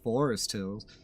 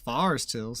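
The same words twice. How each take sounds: First: Forest is said in a non-local, outsider way. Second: Forest is said in the local New York way. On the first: This is how people from elsewhere say it. The speaker calls it wrong. "not Forest Hills" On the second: This is how people who live there say it. The speaker calls it right. "Anyone in Forest Hills will tell you it's Forest Hills"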